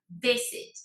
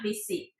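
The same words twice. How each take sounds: First: The stress is on the first syllable. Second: The stress is on the second syllable. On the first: The speaker calls it right. "El acento va en la primera" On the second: The speaker calls it wrong. "It's not visit"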